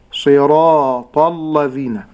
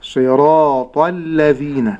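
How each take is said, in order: First: Slow صراط الذين with a thickened, dark lam; wrong heavy lam. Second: Slow صراط الذين with heavy ta, light lam; full dark ta, then thin lam in صراط الذين; correct pronunciation. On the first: Sheikh showing the other mistake, heavy lam in صراط الذين. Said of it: "النطق الخطأ". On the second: Sheikh modelling correct صراط الذين, slow, heavy ta and light lam. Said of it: "النطق الصحيح". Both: Shown as a demonstration.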